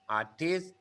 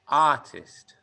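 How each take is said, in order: First: The stress is on the second syllable. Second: The stress is on the first syllable. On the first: The speaker calls it wrong. "Thai people like to stress the second syllable" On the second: The speaker calls it right. "in English we stress the first syllable"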